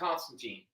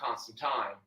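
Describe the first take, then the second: First: The last syllable rhymes with 'seen'. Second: The last syllable rhymes with 'fine'. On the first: The speaker calls it wrong. "I always called him John Constantine" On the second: The speaker calls it right. "Tyne, not teen"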